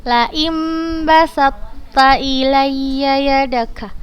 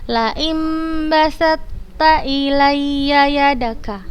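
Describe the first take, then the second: Both takes have the same delivery.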